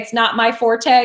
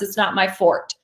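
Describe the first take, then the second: First: The last word is not said like fort. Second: The last word is said like fort. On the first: "when you say it's not my forte" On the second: "it's actually supposed to be pronounced"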